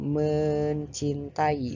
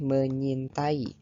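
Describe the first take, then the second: First: The middle 'c' sound is clearly pronounced. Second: The middle 'c' sound is dropped. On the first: The speaker calls it right. "Seharusnya mencintai" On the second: The speaker calls it wrong. "Seharusnya mencintai, bukan menyintai"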